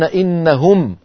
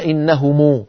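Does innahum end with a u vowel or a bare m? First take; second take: bare m; u vowel. First: The word ends with a bare, silent m. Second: The word ends with a u vowel after m. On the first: The speaker calls it right. "بالإسكان هكذا" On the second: The speaker calls it wrong. "إذا وقفوا لا يقولون إنهم"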